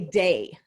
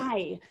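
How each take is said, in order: First: The vowel sounds like the word day. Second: The vowel sounds like the word die. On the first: "I would say day" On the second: "please pronounce it die"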